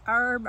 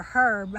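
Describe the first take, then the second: First: "herb" with the h dropped, like "erb"; silent-h herb. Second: "herb" with an audible h at the start; h-sounded herb. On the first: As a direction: say "herb" starting on the vowel, no h. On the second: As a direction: breathe out a clear h to begin "herb". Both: Shown as a demonstration. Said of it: "never know quite how to say that".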